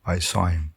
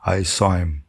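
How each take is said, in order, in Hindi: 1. h छोड़ दिया जाता है और शब्द आपस में मिल जाते हैं। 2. h छोड़ दिया जाता है और शब्द आपस में मिल जाते हैं।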